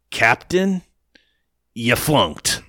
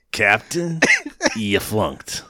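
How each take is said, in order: First: Lightly voiced clipped officer line; a hint of a stiff military dismissal; mocking the major. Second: Understated military put-down; a touch of the major's dismissal; mild officer quote. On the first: Quoting the major to the co-host with a light officer voice. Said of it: "He says it like that". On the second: Retold or imitated. Retelling the major's line to the co-host, lightly voiced. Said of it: "But he says".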